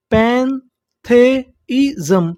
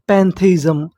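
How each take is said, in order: First: पैंथेइज़म stretched out slowly, rising at the end; slow syllable-by-syllable. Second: Said in the usual way. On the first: Shown as a demonstration. Teacher spells out the new word slowly for students. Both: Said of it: "तो meaning क्या बनी".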